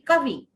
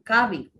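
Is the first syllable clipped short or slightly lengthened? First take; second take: clipped short; slightly lengthened. First: The first syllable is clipped short with a jerk. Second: The first syllable is slightly lengthened, smoothly. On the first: The speaker calls it wrong. "वो झटके से भी नहीं बोलना" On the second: The speaker calls it right. "उससे पहले वाले वर्ण को जरा सा लंबा कर दीजिए"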